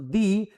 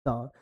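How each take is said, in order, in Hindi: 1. इस शब्द का अंत लंबी 'ee' आवाज़ से होता है। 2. इस शब्द का अंत छोटी 'uh' आवाज़ से होता है। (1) "द अगर वॉवेल से शुरू होता है तो ऐसे केस में क्या पढ़ते हैं उसको" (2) "नॉर्मल उच्चारण अगर कॉन्सोनेंट से होता है तो क्या पढ़ते हैं उसको"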